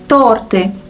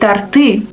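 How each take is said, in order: First: The stress is on the first syllable. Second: The stress is on the second syllable. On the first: The speaker calls it right. "The right stress is on the first syllable" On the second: The speaker calls it wrong. "people often confuse it and say торты"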